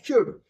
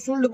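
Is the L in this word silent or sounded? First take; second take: silent; sounded. First: The L sound is left out. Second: The L sound is clearly pronounced. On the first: The speaker calls it right. "लेकिन शुल्ड तो वो है ही नहीं" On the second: The speaker calls it wrong. "तो वो गलत pronunciation है।"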